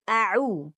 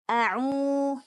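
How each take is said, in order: First: The vowel and ain sound clean, not nasal. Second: The vowel and ain sound nasal, through the nose. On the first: The speaker calls it right. "tapi a'u" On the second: The speaker calls it wrong. "tidak a'u"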